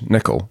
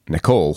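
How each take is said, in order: First: The name is said the Scottish way. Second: The name is said the French way. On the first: The speaker calls it right. "you pronounce it in Scottish" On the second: The speaker calls it wrong. "people like to call it Nicole, and I'm not French"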